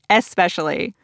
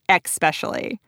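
First: The word is pronounced in its standard form. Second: The word is pronounced with a slipped sound. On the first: The speaker calls it right. "I feel like I can finally say it right" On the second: The speaker calls it wrong. "I say the word especially as especially"

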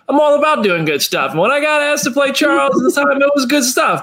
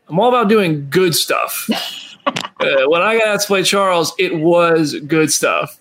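First: It is said in a sincere, straightforward tone. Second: It is said in a hesitant, sarcastic tone.

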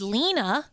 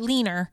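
First: The name ends in a plain vowel. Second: The name ends with an added r sound. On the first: "best friend's name is Lena" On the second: "she calls her Leaner"

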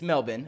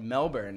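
First: It is said with an Australian pronunciation. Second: It is said with an American pronunciation. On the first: The speaker calls it right. "It's Melbourne, okay? Say it properly" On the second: The speaker calls it wrong. "I said Melbourne, and she was like, whoa, we're going to have to fix this"

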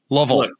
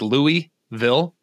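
First: The name is reduced to sound like 'luh-vul'. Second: The name is said in full, not reduced. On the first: The speaker calls it right. "It's almost like L-U-H-V-U-L" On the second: The speaker calls it wrong. "I called them Louisville in the open"

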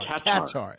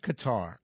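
First: The stress is on the first syllable. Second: The stress is on the second syllable. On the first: This is the airline's own pronunciation. "Emphasis on the can" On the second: This is the speaker's preferred pronunciation. "I still like Qatar"

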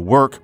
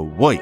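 First: The vowel is a plain 'er' sound. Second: The vowel is an 'oi'-like sound. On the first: "Instead of saying" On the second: "they go to woik"

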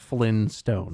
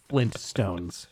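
First: The t sound is dropped. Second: The t sound is clearly pronounced. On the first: The speaker calls it wrong. "not Flintstones" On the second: The speaker calls it right. "To express that it's Flintstones"

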